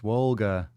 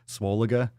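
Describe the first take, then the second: First: The word is said with two syllables. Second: The word is said with three syllables. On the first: The speaker calls it right. "oh, it's Swolga" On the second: The speaker calls it wrong. "I was pronouncing it wrong"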